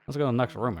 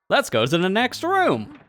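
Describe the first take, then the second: First: It is said in a glum, depressed tone. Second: It is said with lively enthusiasm.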